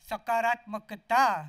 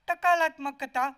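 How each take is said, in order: First: The word begins with an s sound. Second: The word begins with a t sound. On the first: "अब बोलो" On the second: "तोतली जुबान में"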